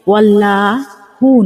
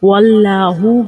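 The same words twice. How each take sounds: First: The l is thin and light, without fullness. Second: The l is heavy, with a full, rounded mouth. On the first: The speaker calls it wrong. "ওয়াল্লাহু নয়" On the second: The speaker calls it right. "ওয়াল্লাহু হবে"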